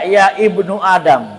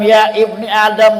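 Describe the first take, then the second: First: The word before Adam ends in a u vowel. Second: The word before Adam ends in an i vowel. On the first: "Gak boleh baca" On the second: "Gak boleh baca"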